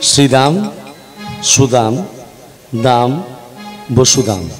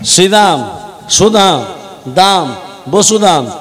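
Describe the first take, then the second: First: The names are said slowly, one by one. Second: The names are said at a quicker pace.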